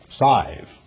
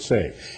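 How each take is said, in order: First: The vowel sounds close to the one in 'sigh'. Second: The vowel sounds like the one in 'say'. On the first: "how do you pronounce S-I-V-E? Sive" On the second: "he doesn't pronounce it save"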